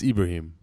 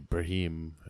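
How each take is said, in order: First: The opening 'I' sound is pronounced. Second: The opening 'I' sound is left out.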